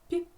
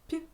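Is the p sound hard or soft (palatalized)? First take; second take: soft; soft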